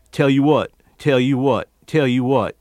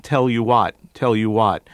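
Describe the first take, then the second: First: "te'you what", L vanished; disappearing L. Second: Said in the usual way. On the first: Shown as a demonstration. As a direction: Tell said with the L melting away. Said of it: "disappearing L's after vowels". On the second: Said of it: "instead of".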